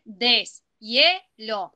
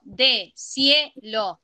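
First: DESHIELO slowly divided as des, hie, lo, the S closing the first syllable; prefix split off. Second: DESHIELO slowly divided as de, sie, lo, the S starting the second syllable; wrong syllable division. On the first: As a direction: say deshielo in three beats: des, ye, lo. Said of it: "yo puedo decir". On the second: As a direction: say deshielo in three beats: de, sie, lo. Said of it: "pero si yo digo". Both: Shown as a demonstration.

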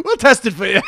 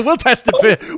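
First: Higher, giggling repeat; laughing cop voice. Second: A giggle through the line; laughing cop voice. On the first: Listener repeating the cop joke, laughing. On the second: Listener joking as the Welsh cop, laughing. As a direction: laugh while playing the cop. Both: Pretend.

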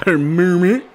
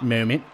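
First: "moment" said as "mumet" with a laugh; goofy wrong take on "moment", vowel rounded to "mu"; mock mispronounced. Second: Said in the usual way. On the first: Shown as a demonstration. Non-native gamer joking about his English, "moment" laughed out as "mumet". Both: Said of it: "English is my second language".

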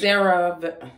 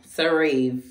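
First: CeraVe said slowly as "SEH-ruv"; first guess at pronunciation. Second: CeraVe said as "suh-REEV"; second guess at pronunciation. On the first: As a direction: stress the first syllable of CeraVe, weak "-ruv" ending. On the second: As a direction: stress a long "ee" at the end of CeraVe. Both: Shown as a demonstration. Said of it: "I don't know how".

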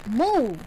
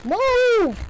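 First: Said in the usual way. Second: High, loud yell of move; shouting. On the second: Real, not acted. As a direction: yell it at the screen. Yelling at game character.

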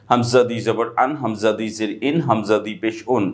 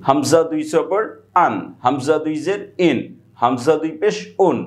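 First: Low, quicker run through "Hamza দুই জবর আন"; quicker straight reading. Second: Measured spelling drill. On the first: Teacher showing another way to read hamza, low and brisk. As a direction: read the spelling straight through in a lower pitch. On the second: Teacher spelling hamza for students, measured drill delivery. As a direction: spell out "Hamza দুই জবর আন" unhurriedly, phrase by phrase. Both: Shown as a demonstration. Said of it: "আপনি এভাবে পড়তে পারেন".

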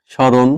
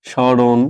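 The two takes are said the same way.

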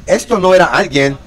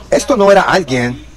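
The two takes are said the same way.

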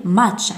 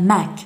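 First: "much" ending in a CH sound; correct pronunciation. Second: "mac" ending in a hard K; wrong pronunciation. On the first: Teacher gives pupils the right option, pronounced with CH. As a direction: say "much" slowly, closing on CH. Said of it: "نقول much". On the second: Teacher offers pupils the wrong option, mispronounced with K. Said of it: "على التلميذ أن ينتبه". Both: Shown as a demonstration.

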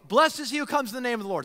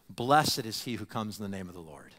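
First: Rattled off fast as an everyday hello; quick friendly greeting. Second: Low, measured reply like a chanted response; solemn liturgical answer. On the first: Traveler greeting a newcomer, fast and casual. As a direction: toss the blessing off quickly like a greeting. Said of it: "And they go". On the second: Worshipper answering the traveler's greeting, low and solemn. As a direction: answer the blessing reverently in a low voice. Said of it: "And they'd answer". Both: Retold or imitated.

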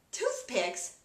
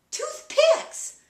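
First: Said in the usual way. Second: Very high, loud mock wife voice; hammed-up high-pitched correction; wife's exclamation. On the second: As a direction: squeal it out as the wife. Acts wife's triumphant mishearing.

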